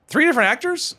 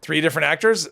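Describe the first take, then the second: First: Surprised question. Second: Said in the usual way. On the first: Real, not acted. Surprised repeat of chat line.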